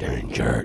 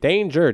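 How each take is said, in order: First: The word is said in a deep, creepy voice. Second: The word is said in a higher, ordinary voice. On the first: "it talks really deep voiced and it's kind of very creepy" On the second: "doesn't say it in the danger, danger"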